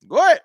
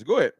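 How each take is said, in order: First: A louder, higher "Go ahead" that rises at the end; daring the chat to say it; loud dare. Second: Said in the usual way. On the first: Shown as a demonstration. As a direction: throw the challenge right back at him.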